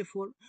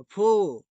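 First: फोर with the r clearly sounded; फोर with r rolled out, the wrong way; wrong rhotic r. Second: फो with the final r dropped; फो American style, r unspoken; silent r. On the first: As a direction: say फोर ending on a full r. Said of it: "वो आपका गलत है". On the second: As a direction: say फो as a long o, no r. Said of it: "American लोग आर बोलते ही नहीं". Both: Shown as a demonstration.

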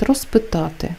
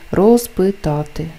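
First: «розпитати» with з said as s; devoiced prefix. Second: «Розпитати» with a clearly voiced z; voiced prefix. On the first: Teacher shows the prefix before a voiceless consonant, devoiced. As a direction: say «розпитати» as rospytaty. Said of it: "якщо вимовляється повільно". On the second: Teacher shows the prefix that is not devoiced, voiced z. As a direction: keep the з buzzing in «Розпитати». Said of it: "не оголошується". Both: Shown as a demonstration.

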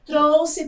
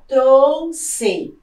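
First: Said in the usual way. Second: Trouxe split, strong TROU, then full XE; stress on first syllable. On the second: Shown as a demonstration. Teacher shows a paroxytone, trouxe split with stressed TROU. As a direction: break trouxe in two, leaning on TROU. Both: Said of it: "também é uma palavra paroxítona".

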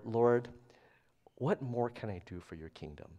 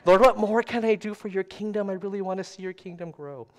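First: Soft, low-voiced question to the Lord; understated tender plea; tender prayer. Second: High, eager replay of a prayer; hammed-up earnest prayer; mock tender plea. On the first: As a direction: ask it humbly, dropping softer and lower. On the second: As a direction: plead with God, starting loud and high, then easing. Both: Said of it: "in a really tender place when I asked that".

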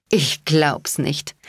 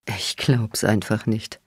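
First: Drawn out, slow „Ich glaub's nicht“; slow disbelief. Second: Chuckling. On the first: Daughter to her mother, slowly and in disbelief. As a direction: let the words hang in disbelief. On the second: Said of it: "kicherte Bones". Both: A narrator's reading.

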